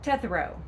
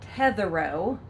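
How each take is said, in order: First: The name is said quickly and compressed. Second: The name is said slowly and drawn out. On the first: The speaker calls it right. "Say it quickly, say it fast" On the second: The speaker calls it wrong. "like the word tetherball"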